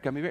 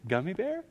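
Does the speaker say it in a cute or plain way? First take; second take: plain; cute. First: It is said in a plain, repetitive way. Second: It is said in a sweet, cute way.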